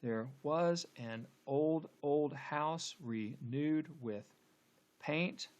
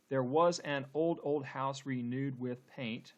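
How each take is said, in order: First: Very slow scansion, pausing before a stressed "paint"; halting, beat-marking verse reading; scanning the meter. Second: Slow, measured verse with every beat audible; deliberate syllable-by-syllable reading; syllable-counting reading. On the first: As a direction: draw out each syllable of "old house renewed with". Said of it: "let's go ahead and, and scan". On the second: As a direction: count out the beats of "old house renewed with paint". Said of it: "let's count the number of syllables". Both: Shown as a demonstration.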